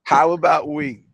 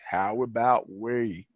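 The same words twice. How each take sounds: First: It is said in a plain accent. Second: It is said in a Southern country accent.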